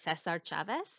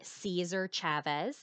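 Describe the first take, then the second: First: The name is said with Spanish pronunciation. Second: The name is said with English pronunciation. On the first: "in Spanish, you would pronounce it Cesar Chavez" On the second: "That's kind of like the English way of saying his name"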